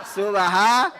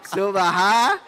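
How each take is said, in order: Both takes have the same delivery.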